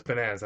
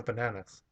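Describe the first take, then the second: First: "bananas" with standard American short "a"; correcting pronunciation. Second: "bananas" with open Hispanic "ah" vowels; Hispanic accent. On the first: Fiancée correcting again, standard American pronunciation. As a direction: say "bananas" as buh-NAN-uhs. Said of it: "She's like". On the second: Insisting to fiancée on own version, Hispanic accent. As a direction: say "bananas" as ba-NAH-nas, Hispanic-style. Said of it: "I'm like". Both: Retold or imitated.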